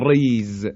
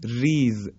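First: ریز with a thick, heavy ر; wrong heavy r. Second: ریز with a thin, light ر. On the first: Teacher showing students the wrong heavy ر in ریز. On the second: Teacher showing students the correct light ر in ریز. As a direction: say ریز with a fine, delicate ر. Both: Shown as a demonstration.

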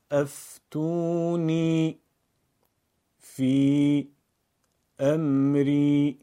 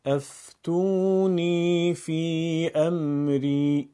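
First: Slow chant of افتونی، فی، امری, pausing after each word; word-by-word recitation. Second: افتونی فی امری chanted slowly in one unbroken line; connected recitation. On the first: Teacher practises phrases with learners: افتونی، فی، امری one word at a time. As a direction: stretch each word, then stop briefly: افتونی، فی، امری. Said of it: "کلمه خوانی یعنی خوندن هر کلمه و سپس کمی مکث". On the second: Teacher follows with continuous reading: افتونی فی امری in one flowing chant. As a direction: link افتونی فی امری with no pauses, long sustained vowels. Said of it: "پیوسته".

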